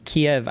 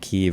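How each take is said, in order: First: The name is said the Russian way. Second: The name is said the Ukrainian way. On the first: "is a more Russian pronunciation" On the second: "is a more Ukrainian pronunciation"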